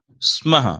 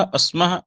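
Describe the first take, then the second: First: स्मः as 'smaha', starting straight on 's' and falling; pure initial s. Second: अस्मः with an extra 'a' before 'sma'; wrong added vowel. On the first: Teacher correcting the mistaken form, pure initial s. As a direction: go right into 'sm' in स्मः, no vowel before it. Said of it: "सीधे सीधे सकार का उच्चारण". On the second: Teacher warning how not to say it, wrong added vowel. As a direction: start अस्मः on a short 'a' ahead of the s. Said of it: "ऐसा नहीं कहेंगे". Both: Shown as a demonstration.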